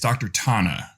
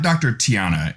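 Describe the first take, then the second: First: The name is said with two syllables. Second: The name is said with three syllables. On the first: The speaker calls it right. "it's Doctor Tana" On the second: The speaker calls it wrong. "is not Doctor Tiana"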